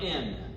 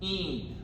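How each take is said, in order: First: The vowel is a short 'i' sound. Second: The vowel is a long 'ee' sound. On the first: The speaker calls it wrong. "Not in" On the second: The speaker calls it right. "The word in is een"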